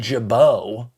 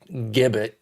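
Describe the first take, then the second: First: The surname is said with a French pronunciation. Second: The surname is said without a French pronunciation. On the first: The speaker calls it right. "French French pronunciation there" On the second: The speaker calls it wrong. "not Gibbet, as some people want to say"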